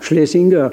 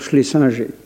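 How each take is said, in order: First: The name is pronounced the German way. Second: The name is pronounced the French way. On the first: This is how the man's own language says it. "c'est un allemand" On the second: This is how people in Paris likely said it then. "je prononce à la française"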